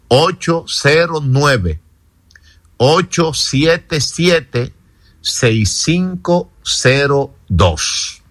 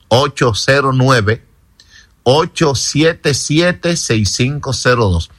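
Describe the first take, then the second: First: It is said more slowly. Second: It is said at normal speed.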